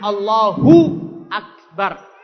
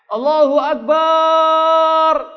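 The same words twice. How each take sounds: First: The vowel in 'bar' is kept short. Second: The vowel in 'bar' is drawn out long. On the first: The word keeps its meaning of greatest. The speaker calls it right. "Kalau baca takbir benar" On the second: The word comes to mean drums. The speaker calls it wrong. "barnya itu ada matnya panjang"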